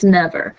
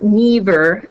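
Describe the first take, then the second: First: The first vowel is short. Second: The first vowel is long. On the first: The speaker calls it right. "it still is a short vowel sound" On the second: The speaker calls it wrong. "It's not never"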